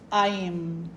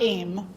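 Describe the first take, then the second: First: Each vowel sound is pronounced separately. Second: The vowels blend into one English-like sound. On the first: The speaker calls it right. "You're pronouncing the A, the I, and the N" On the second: The speaker calls it wrong. "It's not aim"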